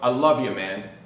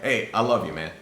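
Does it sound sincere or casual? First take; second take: sincere; casual. First: It sounds sincere and heartfelt. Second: It sounds casual and offhand.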